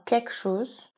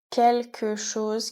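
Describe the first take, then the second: First: The l sound in quelque is dropped. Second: The l sound in quelque is pronounced.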